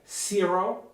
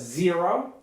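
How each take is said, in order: First: The word begins with a voiceless s sound. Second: The word begins with a voiced z sound. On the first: The speaker calls it wrong. "producing s when he or she should have been producing z" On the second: The speaker calls it right. "should have been producing z"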